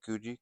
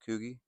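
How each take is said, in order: First: The middle consonant is a soft j sound. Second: The middle consonant is a hard g sound. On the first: The speaker calls it wrong. "Kuji sounds weird" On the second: The speaker calls it right. "We're going to go with Kugi"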